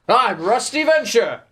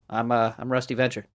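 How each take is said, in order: First: It is said in a high put-on voice. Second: It is said in a low, natural voice.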